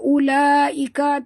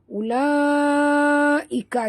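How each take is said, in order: First: The first vowel is cut short. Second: The first vowel is held long. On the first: The speaker calls it wrong. "Jangan baca ulaika, tak betul" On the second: The speaker calls it right. "sini panjang"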